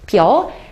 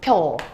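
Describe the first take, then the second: First: Two separate vowels, pi then eo. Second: Merged into one syllable, pyeo. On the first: "일단 힘을 줘서 피어라고 발음하는 것도 되지" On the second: "조금 편하게 발음하려고 보니까 줄여서 펴라고 해도 되는 거지"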